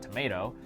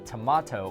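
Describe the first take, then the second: First: The middle vowel is an 'ay' sound. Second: The middle vowel is a broad 'ah' sound. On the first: "as they say in the States" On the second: "I know you're from Australia"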